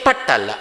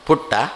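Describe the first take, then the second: First: The vowel is open, like in cut. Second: The vowel is rounded, like in book. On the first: The speaker calls it wrong. "P ಯು T ಪಟ್ಟಲ್ಲ" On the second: The speaker calls it right. "P ಯು T ಪುಟ್ಟ"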